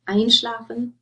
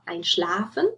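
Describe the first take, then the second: First: The stress is on the first syllable. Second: The stress is on the second syllable. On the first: The prefix is separable. The speaker calls it right. "that stress already tells you, oh, if I use this in a sentence, I have to separate it off" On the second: The prefix would be inseparable. The speaker calls it wrong. "You don't say anrufen or einschlafen. Um, then they would be inseparable"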